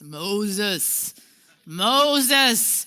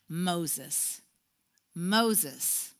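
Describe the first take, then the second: First: It is said powerfully, with a booming voice. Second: It is said softly, without force.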